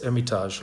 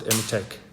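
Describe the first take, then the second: First: Said in the usual way. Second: "Hermitage" said with a hard k ending, "Hermi-tek"; alternative local pronunciation. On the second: Shown as a demonstration. Winemaker showing how some guys pronounce the grape's name, alternative pronunciation. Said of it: "as some guys might pronounce it".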